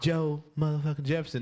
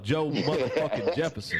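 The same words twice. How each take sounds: First: It is said weakly and timidly. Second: It is said loudly and forcefully. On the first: The speaker calls it wrong. "You can't say it like a little bitch" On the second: The speaker calls it right. "say it with your full chest"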